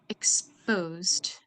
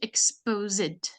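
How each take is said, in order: First: The ending is a plain d sound, no extra syllable. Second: The ending is pronounced as an extra syllable. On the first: The speaker calls it right. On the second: The speaker calls it wrong.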